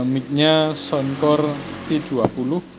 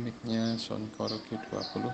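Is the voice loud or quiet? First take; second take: loud; quiet. First: It is spoken at a normal volume. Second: It is spoken at a lowered volume. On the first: "ini kita coba suara biasa" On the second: "kita pelankan suaranya"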